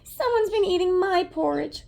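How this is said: It is squeaked in a small, high voice.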